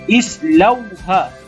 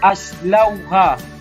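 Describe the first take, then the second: First: The word begins with an i vowel. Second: The word begins with an a vowel. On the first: The speaker calls it right. "kita perlu baca baris kasrah. Seperti islauha" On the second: The speaker calls it wrong. "Tak boleh kita baca aslauha"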